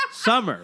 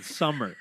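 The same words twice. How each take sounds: First: "Summer" repeated loud and high through a laugh. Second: Said in the usual way. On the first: Real, not acted. Guest recalling brothers' Scottish summer, laughing "Summer" loud.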